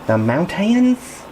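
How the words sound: It is said in an Appalachian accent.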